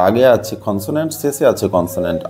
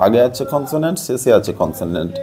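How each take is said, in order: Both takes have the same delivery.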